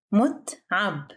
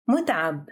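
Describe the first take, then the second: First: "متعب" split into two syllables with a gap. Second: Said in the usual way. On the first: Shown as a demonstration. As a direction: pause midway through "متعب". Vocabulary drill, broken into syllables.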